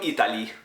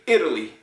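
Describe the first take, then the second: First: The stress is not on the first syllable. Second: The stress is on the first syllable. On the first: The speaker calls it wrong. "the emphasis is not the same" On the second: The speaker calls it right. "Emphasis on the first syllable"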